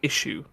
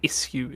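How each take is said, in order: First: It is pronounced in an ordinary, everyday way. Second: It is pronounced in a posh, upper-class way. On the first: "instead of issue" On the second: "those of more upper class status to say issue"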